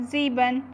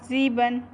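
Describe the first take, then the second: Both takes have the same delivery.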